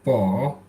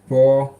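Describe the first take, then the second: First: The syllable has a low dipping pitch. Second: The syllable has a high level pitch.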